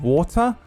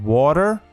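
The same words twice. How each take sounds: First: It is said in a non-American accent. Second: It is said in an American accent. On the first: Listeners could not understand it. "they still didn't know what I was saying" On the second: Listeners understood it. "until I went water, and they understood it"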